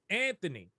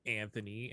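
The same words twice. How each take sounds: First: Name punched up with commentator energy; hyped. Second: Said in the usual way. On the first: Shown as a demonstration. Commentator recording names in multiple tones, hyped. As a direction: call the player's name with excitement. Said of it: "some of 'em getting hyped". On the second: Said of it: "some of 'em getting hyped. So you gotta go".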